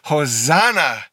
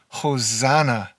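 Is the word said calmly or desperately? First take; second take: desperately; calmly. First: The word is said with desperate, urgent force. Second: The word is said plainly, without urgency. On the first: "with a little bit more desperation and urgency" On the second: "Would you say that with me?"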